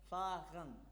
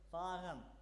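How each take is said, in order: First: The word is said slowly. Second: The word is said quickly.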